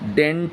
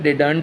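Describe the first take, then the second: First: It is said compressed, like 'dent'. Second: It is said fully as 'di-dant'. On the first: The speaker calls it right. "डेंट बोला जाता है" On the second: The speaker calls it wrong. "डिडंट wrong pronunciation है"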